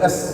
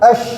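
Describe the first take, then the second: First: The consonant is a narrow hissing s sound. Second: The consonant is an sh sound with spreading air. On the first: The speaker calls it wrong. "Tidak boleh es begitu" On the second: The speaker calls it right. "Harus ash, menyebarkan hawa"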